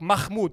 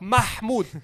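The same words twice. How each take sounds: First: The middle h is plain, with no throaty gasp. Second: The middle h is a breathy, throaty gasp. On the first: The speaker calls it wrong. "They're like" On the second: The speaker calls it right. "All you have to do is say the ah"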